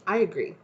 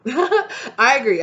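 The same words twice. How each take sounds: First: Said in the usual way. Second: Laughing it out, drawn-out and higher; amused laughing agreement. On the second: Real, not acted. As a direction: agree through a real laugh.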